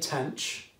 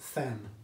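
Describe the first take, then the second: First: It sounds like 'tanch', ending in a ch sound. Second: It sounds like 'than', starting with a th sound. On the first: "I say tanch" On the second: "some people say than"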